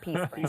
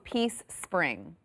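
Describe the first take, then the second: First: The phrase is said very fast, sounds run together. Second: The phrase is said at normal speed.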